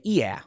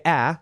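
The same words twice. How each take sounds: First: "yeah" with the "ah" raised to "ee-ah"; Chicago accent vowel. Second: Said in the usual way. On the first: Shown as a demonstration. Showing how Chicagoans say "ah", "yeah" as "ee-ah". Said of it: "a remnant of the Chicago accent". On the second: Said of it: "you don't say".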